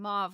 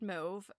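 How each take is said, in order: First: The vowel rhymes with the vowel in suave. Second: The vowel does not rhyme with suave. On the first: "mauve like suave" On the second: "sounds like kind of French and European"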